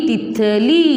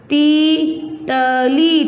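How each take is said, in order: First: Said in the usual way. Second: तीतली very slowly, as ती...त...ली; syllable by syllable. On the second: Shown as a demonstration. Teacher dictating for pupils to write, syllable by syllable. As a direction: dictate तीतली one held syllable at a time. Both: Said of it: "तो आप शब्द लिखोगे इसका".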